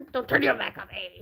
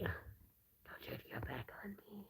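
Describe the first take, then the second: First: Said in the usual way. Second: Whispered plea to a pet; hushed mock plea to the hamster. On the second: Real, not acted. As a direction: breathe it out, unvoiced and slow. Repeats it to the hamster.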